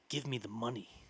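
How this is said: The emphasis falls where it usually would. A flat, predictable reading of a familiar line. "the bad actor will probably say it like"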